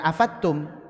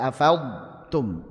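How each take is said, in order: First: The dhad merges into the t sound. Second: The dhad is pronounced clearly before t. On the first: The speaker calls it wrong. "jangan afattum" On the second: The speaker calls it right. "Afadtum pakai dhad"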